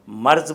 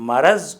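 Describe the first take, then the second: First: The r and z are said together as a cluster. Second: A vowel is heard between the r and z. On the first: "मर्ज़ बोलना गलत है" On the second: "लफ्ज़ मरज़"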